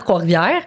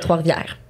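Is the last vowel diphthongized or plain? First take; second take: diphthongized; plain. First: The last vowel glides as a diphthong. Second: The last vowel stays plain without gliding. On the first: This is the speaker's usual regional way. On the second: This is the way the speaker is practicing. "j'essaie de travailler pour le"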